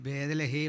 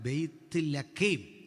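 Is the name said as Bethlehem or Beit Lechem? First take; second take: Bethlehem; Beit Lechem. First: It is said as Bethlehem, blended together. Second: It is said as Beit Lechem, two parts. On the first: The speaker calls it wrong. "വാസ്തവത്തിൽ ഉച്ചാരണം തെറ്റ" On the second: The speaker calls it right. "ഇതാണ് പറയണ്ടേ"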